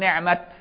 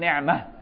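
First: The word ends with a clear t sound. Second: The word ends with a soft h sound. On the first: It refers to the Prophet as God's blessing. "التاء فيها مفتوحة، فلو وقفت عليها تقول نعمة" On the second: It refers to other blessings besides the Prophet. "تلاقي التاء مربوطة، لكن في الثانية لو وقفت عليها تقول نعمة"

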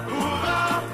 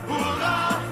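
The two takes are said the same way.

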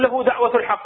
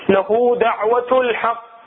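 First: The speaker passes quickly over the q sound. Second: The speaker pauses slightly on the doubled q. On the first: The letter is heard as one letter. The speaker calls it wrong. "ما اقول له دعوة الحق على السريع" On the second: The letter is heard as two letters. The speaker calls it right. "نوقف شوي على الحرف"

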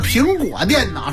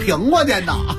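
First: It is said in standard pronunciation. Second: It is said with a regional accent. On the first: The speaker calls it right. "那叫苹果电脑" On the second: The speaker calls it wrong. "你这个发音一直都有问题，想学北京人说话没学好"

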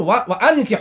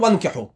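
First: The glottal stop after 'wa' is clearly pronounced. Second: The glottal stop after 'wa' is dropped. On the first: The speaker calls it right. "يقول وأنكح" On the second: The speaker calls it wrong. "ما يقول وأنكح"

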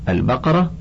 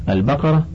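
Both takes have the same delivery.

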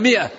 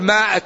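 First: The first vowel is a short 'i'. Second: The first vowel is a long 'aa'. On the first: The speaker calls it right. "هي مائة" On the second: The speaker calls it wrong. "يقول مائة، هي ما"

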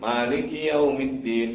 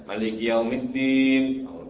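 First: The first vowel of Maliki is long. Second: The first vowel of Maliki is short. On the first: The speaker calls it right. "Panjang kan?" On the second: The speaker calls it wrong. "ada yang baca"

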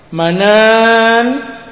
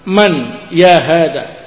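First: The word is manan, ending on a stopped n. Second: The word is short man, running on. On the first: The word ends the utterance. "nunnya panjang, manan kasih nun sukun, dibaca waqaf" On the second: The word is joined to the following words. "Wa in wasalta qulta man ya hada"

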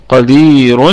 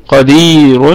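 No difference in how they are said.

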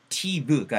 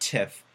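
First: The final consonant is a voiced v. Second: The final consonant is a voiceless f. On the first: The speaker calls it wrong. "TV가 아니고" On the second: The speaker calls it right. "바람만 훅 하고 빼주잖아요"

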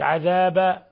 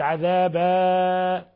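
First: The final vowel is cut short. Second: The final vowel is stretched very long. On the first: "إن قلت عذابا فصارت فتحة وتكون قد أسقطت الألف" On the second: "فتكون مديت فوق ثلاث حركات"

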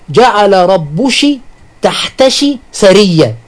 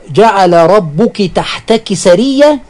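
First: The pronoun endings are pronounced with a sh sound. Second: The pronoun endings are pronounced with a k sound. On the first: "يجعلون كاف المؤنث شينا" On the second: "في قوله تعالى"

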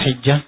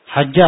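First: The first vowel is a short 'i'. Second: The first vowel is a short 'a'. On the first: "أو بالكسر" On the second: "بالفتحة"

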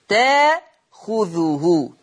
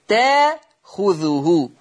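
No difference in how they are said.

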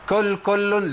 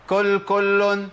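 No difference in how they are said.

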